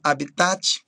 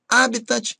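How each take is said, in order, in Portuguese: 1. A tônica está na última sílaba. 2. A tônica está na primeira sílaba. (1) "e não habitat" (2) "Palavras que são proparoxítonas"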